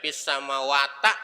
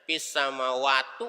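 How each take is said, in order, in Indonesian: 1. Kata terakhir diakhiri dengan vokal a. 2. Kata terakhir diakhiri dengan vokal u. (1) "Nggak boleh dibaca fis samawata" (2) "nggak boleh dibaca fis samawatu"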